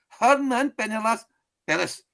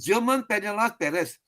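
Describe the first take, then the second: First: The first name begins with an H sound. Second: The first name begins with a J sound. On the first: The speaker calls it right. "in Spain it will be Herman. G becomes an H" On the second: The speaker calls it wrong. "Wrong, wrong pronunciation"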